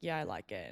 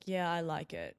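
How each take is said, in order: First: Lower, brushing him off; uninterested. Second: Said in the usual way. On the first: Retold or imitated. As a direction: show him you have zero interest. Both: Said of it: "kinda showing that I wasn't really interested".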